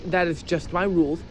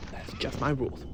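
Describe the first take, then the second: First: Said in the usual way. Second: Softer, lower muttered repeat; quiet aside. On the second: Shown as a demonstration. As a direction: repeat it under your breath. Repeated rule, second take dropped.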